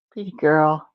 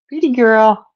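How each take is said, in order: First: Soft murmur. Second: Higher pet praise. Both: Real, not acted. Praising the cat.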